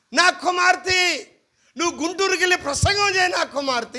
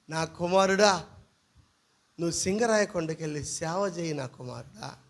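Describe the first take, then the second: First: Mock God voice. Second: Low, soft mock voice of God. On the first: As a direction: stretch out the call like a pompous vision. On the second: Pastor mocks dream claims, low mock God. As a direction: lightly put on a deep divine voice, mocking. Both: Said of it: "దేవుడు ఆ రాత్రి అట్టే నా కల్లోకి వచ్చి".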